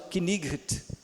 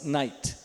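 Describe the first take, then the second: First: The K at the start is sounded. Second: The K at the start is silent. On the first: This is how it may have been said centuries ago. "hoje não se fala Knight, se é que falava assim" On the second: This is how it is said today. "agora se fala assim"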